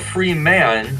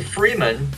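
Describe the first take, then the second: First: The two words are said slowly and separately. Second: The words run together quickly as one.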